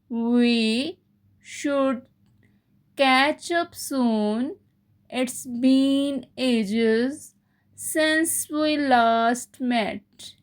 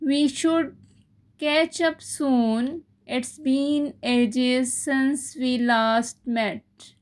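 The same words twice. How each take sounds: First: It is said slowly. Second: It is said at normal speed.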